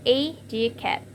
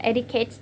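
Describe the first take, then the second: First: "educate" drawn out slowly as e-du-cate; syllable demonstration. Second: Said in the usual way. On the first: Shown as a demonstration. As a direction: sound out "educate" slowly, first syllable stretched. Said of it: "educate is". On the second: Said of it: "For the example is educate".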